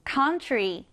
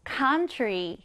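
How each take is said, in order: First: Country, first syllable COUN leaned on, falling end; 앞 음절을 세게 country; stress on first syllable. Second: Country with the COUN stressed, try falling; 첫음절 COUN에 강세 주어 country; stress on first syllable. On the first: (첫음절 강세로 country) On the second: (앞에 강세를 넣어 country) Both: Shown as a demonstration. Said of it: "앞에 강세를 넣어주세요".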